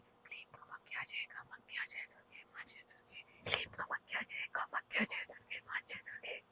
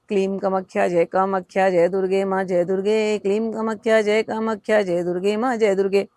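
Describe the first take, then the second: First: It is said softly in a whisper. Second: It is said loudly.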